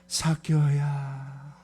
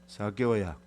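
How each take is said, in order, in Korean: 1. 이름을 따뜻하고 사랑이 담긴 말투로 부르는 거예요. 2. 이름을 평평하고 무표정한 말투로 부르는 거예요. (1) "가장 사랑이 많은, 사랑이 막 폭포수같이 흘러내리는 그런 마음으로 부르는 이름" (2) "무표정한 말일까?"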